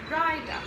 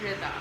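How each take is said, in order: First: The first vowel is a long 'eye' sound. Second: The first vowel is a short 'ih' sound. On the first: This is how teachers mispronounced the name. The speaker calls it wrong. "in preschool, my name was pronounced" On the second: This is the name's own pronunciation. The speaker calls it right. "My name is"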